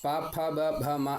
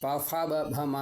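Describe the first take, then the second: First: The 'pha' is an aspirated 'p' with both lips. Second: The 'pha' is a lip-and-teeth 'f' sound. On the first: The speaker calls it right. "പ ഫ ബ ഭ മ എന്നാണ്" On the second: The speaker calls it wrong. "പ ഫ ബ ഭ മ എന്നല്ല"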